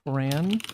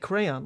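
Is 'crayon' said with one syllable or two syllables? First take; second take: one syllable; two syllables. First: The word is said with one syllable. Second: The word is said with two syllables. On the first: The speaker has always said it this way. "one syllable" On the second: Someone else says it this way. "like two syllables"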